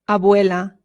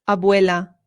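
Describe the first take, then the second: No difference in how they are said.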